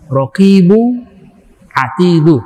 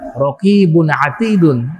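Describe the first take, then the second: First: Each word ends in a vowel, without n. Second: Each word ends with a final n sound. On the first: It is the name of the angels. "dibacanya tanpa tanwin" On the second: It describes a quality of the angels. "kalau saya baca dengan tanwin"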